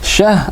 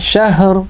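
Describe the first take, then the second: First: The word ends without a final r sound. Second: The word ends with a final r sound. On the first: The speaker calls it wrong. "ada ra-nya" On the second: The speaker calls it right. "ada ra-nya"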